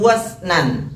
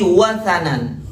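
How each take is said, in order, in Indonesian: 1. Kata itu diucapkan dengan dua suku kata. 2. Kata itu diucapkan dengan tiga suku kata. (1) "Bukan wasnan" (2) "tapi wasanan"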